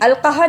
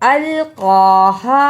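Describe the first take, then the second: First: The vowel after the q is cut short. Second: The vowel after the q is held long. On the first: The speaker calls it wrong. "इसे अलक़ाहा नहीं पढ़ना" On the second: The speaker calls it right. "इस पे थोड़ी सी देर लगानी है"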